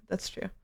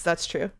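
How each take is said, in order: First: Much softer repeat of That's true; quiet echo. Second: Said in the usual way. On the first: Shown as a demonstration. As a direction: say That's true again under your breath.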